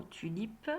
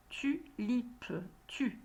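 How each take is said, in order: First: Said in the usual way. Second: "Tulipe" broken after "Tu"; split into syllables. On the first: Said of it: "dans le mot tulipe". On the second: Shown as a demonstration. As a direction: say "Tulipe" in two separate syllables, Tu, lipe. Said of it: "j'entends la syllabe tu". («Tulipe» découpé en syllabes)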